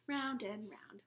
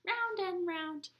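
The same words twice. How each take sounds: First: Low, soft sung line; sung, wheels on the bus, low; sung plain. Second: Sung, drawn-out last round of the song; sung, slow, high final line of the rhyme; sung, ending a nursery song for babies. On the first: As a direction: sing it gently. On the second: End of bus song. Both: Pretend.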